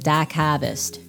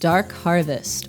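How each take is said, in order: First: The r in the first word is dropped. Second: The r in the first word is pronounced.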